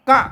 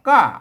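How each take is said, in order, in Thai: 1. พยางค์นี้มีเสียงสูงสั้น 2. พยางค์นี้มีเสียงต่ำตก (1) "เสียงตีสั้นตีตาย" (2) "กะมันต่ำลงมาหน่อยนะเป็นเสียงโท"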